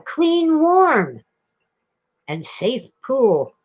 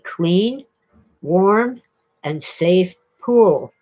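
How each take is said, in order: First: The emphasis falls on the words oddly. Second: The emphasis falls on the words naturally. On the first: The speaker calls it wrong. "I still remember him getting the enunciation wrong, the emphasis" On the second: The speaker calls it right. "It should be"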